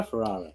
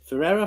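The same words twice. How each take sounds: First: "Ferrara" with middle vowel as in "far"; alternative pronunciation. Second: "Ferrara" with middle vowel as in "air"; alternative pronunciation. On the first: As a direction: say Ferrara as "fer-AH-ruh". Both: Shown as a demonstration. Trying two pronunciations of the surname.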